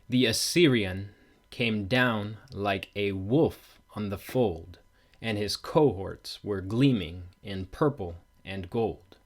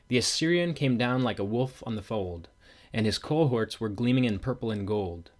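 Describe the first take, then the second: First: The stressed beats are strongly exaggerated. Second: It is read with natural, unexaggerated stress.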